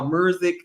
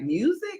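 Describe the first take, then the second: First: It is said with an added R sound. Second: It is said without an added R sound.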